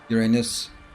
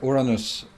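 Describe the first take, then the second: First: It is pronounced the common English way. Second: It is pronounced the European, Scandinavian way. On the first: The name carries a rude double meaning. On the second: The rude double meaning disappears.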